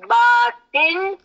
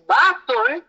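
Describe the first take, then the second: First: The second syllable has an 'i' vowel. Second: The second syllable has a 'u' vowel. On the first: It keeps the meaning of the Quranic word. The speaker calls it right. "the correct pronunciation is Batin" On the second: It loses the meaning and suggests someone talkative. The speaker calls it wrong. "if we pronounce it uh, as Batun, then it loses that meaning"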